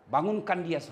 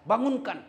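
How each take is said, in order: First: Said in the usual way. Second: Bangunkan repeated louder and higher; urging repeat of bangunkan; insistent repeat. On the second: Shown as a demonstration. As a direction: press the word bangunkan hard.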